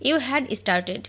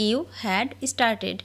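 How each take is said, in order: First: Said in the usual way. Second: Very slow, word by word; each word drawn out for learners to copy; slow dictation. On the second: Shown as a demonstration. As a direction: spell it out slowly for the class. Repeated slowly for learners.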